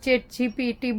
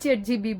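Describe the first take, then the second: First: The term ends with the sounds G-P-T. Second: The term ends with the sounds G-B. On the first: This is how most people say it. "આપણે chat જીપીટી બોલીએ" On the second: This is how someone else says it. "ઈ chat જીબી બોલે"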